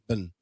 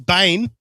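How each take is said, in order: First: The vowel is a short 'i' sound. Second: The vowel is a long 'ay' sound. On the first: The speaker calls it right. "It's just Bin" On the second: The speaker calls it wrong. "you don't say Bane"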